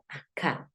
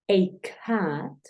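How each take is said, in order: First: The article sounds like a short 'eh'. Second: The article sounds like a full 'ay'. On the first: "la gente dice e" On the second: "el sonido abierto de la a, o sea, ey"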